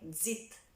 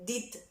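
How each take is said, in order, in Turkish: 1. Kelime karışık bir dz sesiyle başlıyor. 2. Kelime düz bir d sesiyle başlıyor. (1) "Tam d diyeceksiniz gibi z getiriyorsunuz" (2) "Did değil"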